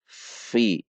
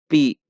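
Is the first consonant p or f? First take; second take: f; p. First: The first consonant uses upper teeth on lower lip. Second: The first consonant is made with both lips. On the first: The speaker calls it right. "bertemunya gigi seri atas bagian bawah dengan bibir bawah" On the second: The speaker calls it wrong. "bukan dibaca pi"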